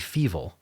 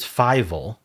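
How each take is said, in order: First: The first vowel sounds like 'ee'. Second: The first vowel sounds like 'eye'. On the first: The word is read as German. The speaker calls it wrong. "I was pronouncing it wrong because I thought it was German, and in German it would be feeble" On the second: The word begins with the number five. The speaker calls it right. "But this is fivel, starts with five"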